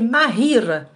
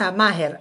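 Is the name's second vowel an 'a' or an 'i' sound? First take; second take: i; a. First: The second vowel sounds like 'i'. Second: The second vowel sounds like 'a'. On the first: The speaker calls it right. "c'est ماهير ... ça s'écrit avec i" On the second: The speaker calls it wrong. "on le prononce comme ça"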